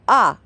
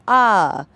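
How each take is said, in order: First: The vowel is held short. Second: The vowel is held long. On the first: "an A" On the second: "two A's"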